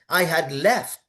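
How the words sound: The word left carries the stress. The speaker calls it right. "You stress the verb"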